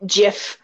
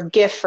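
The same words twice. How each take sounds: First: Gif said with a hard g, like gift. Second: Gif said with a soft g, like jif. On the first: Friend jokes about how to say gif, hard g. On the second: Friend jokes about how to say gif, soft g. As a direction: say gif with a soft j sound as in jam. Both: Shown as a demonstration. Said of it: "however the hell you pronounce it".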